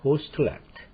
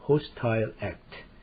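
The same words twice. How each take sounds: First: It is said with an American pronunciation. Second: It is said with a British pronunciation. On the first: "미국에서는" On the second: "영국에서는"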